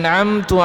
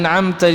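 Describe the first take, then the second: First: The word ends with a 'u' vowel. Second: The word ends with an 'a' vowel. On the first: The speaker calls it wrong. "dibaca an'amtu alai. Nah, itu jadi nanti uh, batal" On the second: The speaker calls it right. "harusnya an'amta"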